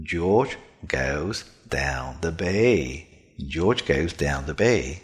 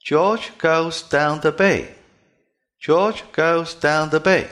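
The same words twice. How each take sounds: First: "George goes down the bay" low and slow, with buzzing voiced dʒ, g, d and b; "George goes down the bay" with the vocal cords vibrating on every consonant, voice kept low; "George goes down the bay" deep and resonant, with fully voiced consonants. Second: "George goes down the bay" with hard unvoiced ch, k and p, higher and louder; "George goes down the bay" read the typical Chinese way, every consonant devoiced, pitch up; "George goes down the bay" slow, high and loud, with voiceless ch, k, t, p. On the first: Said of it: "是不是声音低低的". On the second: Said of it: "这非常明显是清辅音".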